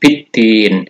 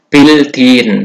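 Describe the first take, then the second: First: The L merges into a doubled d sound. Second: The L sound is clearly pronounced. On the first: The speaker calls it right. "tetapi biddin" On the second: The speaker calls it wrong. "tidak dibaca bildin"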